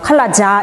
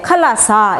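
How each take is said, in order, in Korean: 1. 마지막 음절은 j 소리로 시작합니다. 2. 마지막 음절은 쉿 하는 s 소리로 시작합니다. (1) "칼라자 이렇게 절대 안 하거든요" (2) "칼라사 이러거든요"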